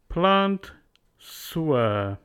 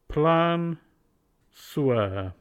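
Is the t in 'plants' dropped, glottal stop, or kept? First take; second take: kept; dropped. First: The t is said, then s links forward. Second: The t is left out entirely. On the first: "Z changes to S" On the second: "Delete T"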